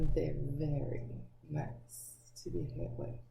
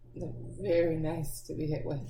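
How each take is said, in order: First: It is said slowly in a lower voice. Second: It is said at a normal pace.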